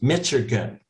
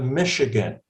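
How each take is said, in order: First: The middle consonant is hard. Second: The middle consonant is soft.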